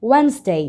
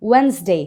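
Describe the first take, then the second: Both takes have the same delivery.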